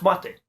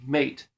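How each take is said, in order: First: "mate" said the Spanish way, MAH-teh, stress on the first syllable; "mate" in two syllables, MAH-teh, first one higher; Spanish pronunciation. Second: "mate" said like the English word, rhyming with gate; "mate" as one English syllable, wrong on purpose; English-style mispronunciation. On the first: Correcting viewers with the Spanish "mate", MAH-teh. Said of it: "It's, of course, mate". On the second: Showing viewers the common wrong way, "mate" rhymed with gate. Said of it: "So it looks like M A T E, mate, but it's not". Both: Shown as a demonstration.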